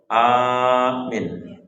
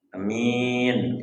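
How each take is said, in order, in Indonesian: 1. Vokal pertama panjang, yang kedua pendek. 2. Vokal pertama pendek, yang kedua panjang. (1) "Kalau hanya panjang, minyak pendek" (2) "Kalau hanya pendek, minyak panjang"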